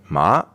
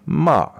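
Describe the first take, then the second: First: "ma" rising like a question; Mandarin second tone. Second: "ma" dropping sharply from high; sharp falling "ma"; Mandarin fourth tone. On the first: Teacher showing the interviewer the second tone, rising. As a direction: lift "ma" upward as if asking. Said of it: "as if it's a question". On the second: Teacher showing the interviewer the fourth tone, falling. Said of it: "the fourth tone is just falling". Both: Shown as a demonstration.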